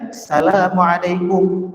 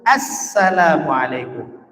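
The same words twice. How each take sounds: First: The article sound 'al' is left out. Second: The article sound 'al' is clearly pronounced. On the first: The speaker calls it wrong. "Enggak boleh kita baca Assalamualaikum, ... Enggak boleh tinggal alif lamnya" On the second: The speaker calls it right. "harus Assalamualaikum"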